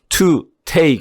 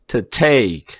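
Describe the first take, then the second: First: 'To' is said fully, apart from 'take'. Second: 'To' is reduced and joined to 'take'. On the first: The speaker calls it wrong. "to take 하면 안 된다고 제가 수십 번을 얘기했어요" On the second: The speaker calls it right. "중성모음으로 바뀌어요. 뒤에 있는 거하고 같이 붙어요"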